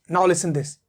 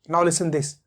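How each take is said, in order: The two takes are said the same way.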